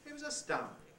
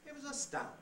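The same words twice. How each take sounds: Both takes have the same delivery.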